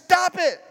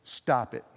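First: Mock holler. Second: Said in the usual way. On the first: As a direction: stop it hollered higher and louder. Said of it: "he's just hollering out".

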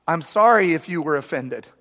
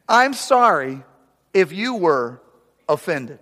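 First: Fake apology. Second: Drawn-out fake apology, pitch rising. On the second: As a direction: say it slowly, sickly sweet and insincere. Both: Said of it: "this is a classic".

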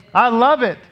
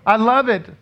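The two takes are said the same way.

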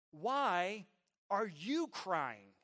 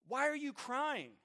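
First: Put-on slow, deliberate question to a child; measured questioning. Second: Higher, slow, emphatic repeated question; insistent questioning. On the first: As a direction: ask it with restraint, drawing it out. Questions his crying son. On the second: Retold or imitated. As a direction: press the child for an answer. Repeats the question more forcefully.

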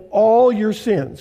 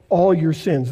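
First: "all your sins." said slowly, weight on "all"; slow emphasis. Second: Said in the usual way. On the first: Shown as a demonstration. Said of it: "would you circle or underline".

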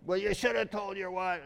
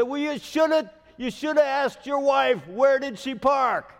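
First: Neighbor's line retold without the yell; a lighter echo of the angry neighbor; neighbor's retort. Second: Much higher and louder mock yell, slowing at the end; imitating yelling neighbor. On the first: Neighbor's retort recalled, a mild mock scold. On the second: Neighbor scolding pastor about his wife's car, loud mock yell. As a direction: scold him like a furious neighbor. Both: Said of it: "He's yelling at me".

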